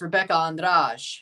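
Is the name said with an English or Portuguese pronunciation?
Portuguese. The name is said with a Portuguese pronunciation. The speaker calls it right. "it's Rebecca Andrade"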